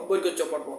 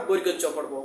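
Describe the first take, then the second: No difference in how they are said.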